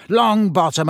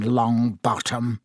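First: Louder, higher bark of a name; sharp call. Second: Cold contempt. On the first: Teacher summoning the clumsy boy, sharply. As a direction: snap the pupil's name. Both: A narrator's reading. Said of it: "said Snape coldly".

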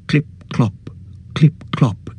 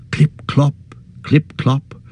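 First: Breathy whispered clip clop; whispered hoofbeats. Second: Higher, voiced clip clop; voiced hoofbeats. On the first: Narrator whispers the sound of approaching hoofs. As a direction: whisper the hoofbeats like a distant rider. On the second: Narrator voices the rider's hoofs drawing close. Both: A narrator's reading.

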